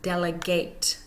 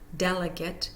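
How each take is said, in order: First: The stress is on the second syllable. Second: The stress is on the first syllable. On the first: It names the action of handing over a task. "When it becomes a verb, delegate, we hear the second syllable" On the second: It names a person sent to represent others. "When it becomes a noun, delegate, we hear the first syllable"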